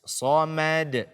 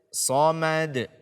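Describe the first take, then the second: The two takes are said the same way.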